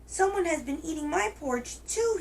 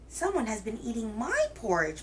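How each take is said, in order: First: It is said in a tiny, little voice. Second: It is said in a medium-sized voice.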